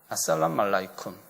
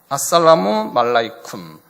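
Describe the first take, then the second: First: Syllables are clipped together and said quickly. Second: Every syllable is said fully at an even pace.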